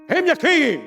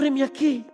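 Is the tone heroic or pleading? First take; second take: heroic; pleading. First: It is said in a bold, heroic tone. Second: It is said in an eager, pleading tone.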